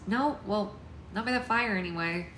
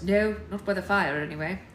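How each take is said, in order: First: Slightly higher character voice; wrong character voice. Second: Lightly voiced young man, firmer; corrected character voice. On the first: Alex answering the parents, mistakenly higher voice. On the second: Alex answering about the fire, corrected voice. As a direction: answer as Alex, louder and steadier. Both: A narrator's reading. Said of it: "Sorry, wrong voice".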